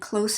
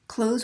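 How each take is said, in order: First: The word ends in a hissing, voiceless consonant. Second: The word ends in a buzzing, voiced consonant. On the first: It is an adjective meaning near. "the noun or adjective part is going to be the voiceless consonant" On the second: It is a verb meaning to shut something. "close when you tell somebody to do it as an action"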